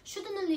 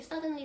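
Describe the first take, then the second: First: The first syllable sounds like 'should'. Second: The first syllable sounds like 'sud'. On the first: This is how a child mislearned it. The speaker calls it wrong. "나한테 그 단어는 shouldn'tly" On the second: This is how other speakers say it. The speaker calls it right. "native가 됐든 뭐 한국 사람이 됐든 suddenly"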